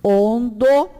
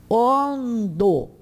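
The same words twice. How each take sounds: First: Ondo louder, the n sounded fully, rising; emphatic repeat. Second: Ondo said clearly with falling tune; model word. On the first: Teacher repeating Ondo louder to drive it home. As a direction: hit Ondo hard with a clear n. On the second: Teacher modelling Ondo for the class. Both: Shown as a demonstration. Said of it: "caras e bocas".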